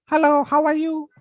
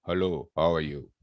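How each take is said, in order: First: Very high, louder squeaky hello; shrill voice. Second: Lower, softer deep hello; baritone voice. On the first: Teacher demoing a shrill voice to the class. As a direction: pitch it way up, shrill. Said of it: "What is shrill?". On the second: Teacher demoing a baritone voice to the class. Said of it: "What is baritone voice?". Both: Shown as a demonstration.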